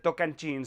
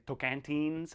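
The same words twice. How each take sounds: First: Tocantins with a "ch" sound, toh-kan-CHEENS; Portuguese-style Tocantins, "cheens" at the end; Portuguese pronunciation. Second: Put-on Tocantins with a hard T, toh-kan-TEENS; English-style Tocantins, "teens" at the end; anglicised pronunciation. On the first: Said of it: "That's the way to pronounce it in Portuguese". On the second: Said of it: "I think we can say". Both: Shown as a demonstration.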